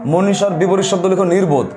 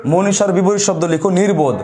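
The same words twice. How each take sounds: The two takes are said the same way.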